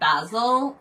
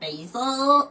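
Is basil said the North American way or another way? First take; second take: other; North American. First: Basil is said in a non-North American way. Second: Basil is said in a North American way.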